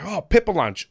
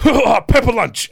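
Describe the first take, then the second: First: Raised, louder passing remark; retold casual noticing. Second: Very high, very loud, slow exclamation; imitated delighted outburst. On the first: Wrestler spotting Pepper Lunch from the bus, mildly excited. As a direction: point it out with mild excitement. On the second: Imitating the referee seizing on the name, loudly excited. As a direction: belt it out high, drawing out the words. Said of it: "And he just went".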